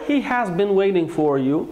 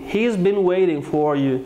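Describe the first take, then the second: First: 'Has' is said fully, with its h sound. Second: 'Has' is shortened to a single 's' sound. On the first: "كلاهما صحيح" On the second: "إذا أردت اللفظ بشكل سريع قليلا كما يتحدث الـ native speakers يجب أن لا تلفظوا الـ h"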